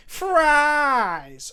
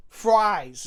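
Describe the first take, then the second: First: Higher, louder, drawn-out call; loud exclaimed. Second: Said in the usual way. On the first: Shown as a demonstration. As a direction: proclaim it like a jolly shout. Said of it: "I want to say fries in a Santa Claus way".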